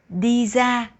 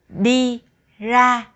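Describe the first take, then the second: First: Ra begins with a z sound. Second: Ra begins with an r sound.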